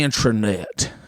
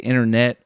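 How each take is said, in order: First: The word begins with an 'intra' sound. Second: The word begins with an 'inter' sound. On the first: "They say intra" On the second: "they don't say internet"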